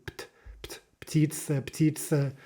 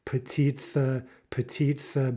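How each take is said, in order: First: "ptitsa" with P straight into T, the "pt-" sounded alone first; unbroken P-T cluster. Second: "petitsa" with a vowel slipped between P and T; cluster broken up. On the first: Teacher drilling an unfamiliar combination, unbroken cluster. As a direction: practise "pt-", then "ptitsa" with no vowel between. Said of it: "not used to making". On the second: Teacher showing learners' urge, breaking up the cluster. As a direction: say "petitsa" as three syllables, puh-tit-sa. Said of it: "break that up somehow". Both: Shown as a demonstration.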